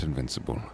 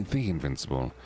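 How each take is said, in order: First: Said in the usual way. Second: THE picked out in "the Invincible"; stress on THE. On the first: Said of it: "It's actually the Invincible". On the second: Shown as a demonstration. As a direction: put the weight on "the" before Invincible. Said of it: "not Invincible".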